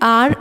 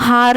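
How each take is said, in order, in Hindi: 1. इस शब्द की शुरुआत स्वर (vowel) की आवाज़ से होती है। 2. इस शब्द की शुरुआत 'h' की आवाज़ से होती है। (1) "हम क्या बोलते हैं? आर" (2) "हम हार नहीं बोलते हैं"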